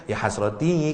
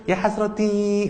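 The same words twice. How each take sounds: First: Said in the usual way. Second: "Ya hasroti" said high and bright, smiling on the i; mock-happy "Ya hasroti"; cheerful sounding. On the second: Shown as a demonstration. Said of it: "kan ndak enak kalau gitu".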